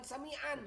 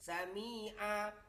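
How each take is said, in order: First: The word ends with an n sound. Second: The word ends in a long open vowel. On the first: The speaker calls it wrong. "bukan sami'an" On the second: The speaker calls it right. "Sami'a bukan sami'an"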